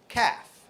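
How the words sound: It is said with an American accent.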